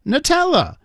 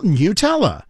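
First: "Nutella" high, first vowel reduced to nuh; nuh-TELLA pronunciation. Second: "Nutella" with a y-glide, NYOO-tella; NYOO-tella pronunciation. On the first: Host offers another way from the label, high nuh-TELLA. Reading jar, trying pronunciations. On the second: Host reads the jar label, NYOO-tella. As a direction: say "Nutella" starting like "new" with a y. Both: Shown as a demonstration.

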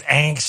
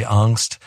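First: "angst" with the a of "anger"; drawn-out ANKST for "angst"; angry-sounding pronunciation. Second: "angst" with an ah vowel; highfalutin pronunciation. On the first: Explaining why it sounds mad, "angst" with a front a. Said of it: "you're mad about something". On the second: Explaining his preference, highfalutin AHNKST for "angst". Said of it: "highfalutin to me". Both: Shown as a demonstration.

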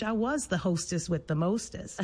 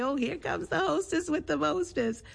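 First: Said in the usual way. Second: High-pitched, playful imitation of a teasing grandfather. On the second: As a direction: tease fondly in a much higher voice. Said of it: "would tease and say".

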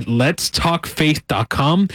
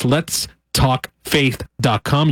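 First: Said in the usual way. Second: Very slow, a pause after each word; slow and spelled out. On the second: Shown as a demonstration. Radio host repeats the web address for listeners, slowly spaced out. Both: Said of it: "if I said that too fast".

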